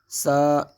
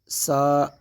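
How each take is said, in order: First: The consonant has a sharp whistling hiss. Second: The same.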